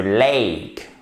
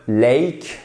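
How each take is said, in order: First: "lake" slow, with a drawn-out ay glide; careful right example of "lake", vowel held; correct diphthong in lake. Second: "lake" mispronounced, its vowel not properly glided; short wrong example of "lake". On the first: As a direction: stretch "lake" into a clear ay diphthong. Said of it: "Non, c'est le lake". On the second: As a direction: say "lake" the mistaken way, quickly. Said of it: "on ne dit surtout pas le lake". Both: Shown as a demonstration.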